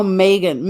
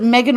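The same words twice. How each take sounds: First: Megan with a long first vowel, "MAY-gun"; long-a pronunciation. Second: Megan with a short e, "MEG-un"; short-e pronunciation. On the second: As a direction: say Megan starting like "leg". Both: Shown as a demonstration. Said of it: "is it Megan or Megan".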